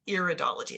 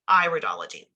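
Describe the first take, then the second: First: The first vowel is a short 'ih' sound. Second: The first vowel is an 'eye' sound, like iris. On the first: The speaker calls it wrong. "It's not iridology" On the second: The speaker calls it right. "We pronounce this iridology because it is an iris"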